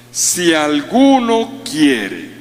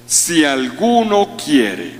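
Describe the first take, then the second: First: "Si alguno quiere" very slow, alguno pressed hard; slower, weightier quote. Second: Si alguno quiere, slow with stress on alguno; slow quote. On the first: Preacher repeating Jesus' words to the congregation, very slow heavy stress on alguno. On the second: Preacher quoting Jesus to the congregation, slow stress on alguno. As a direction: lay down "si alguno quiere" slowly, alguno leaning. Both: Shown as a demonstration. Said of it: "Ahí comienza todo".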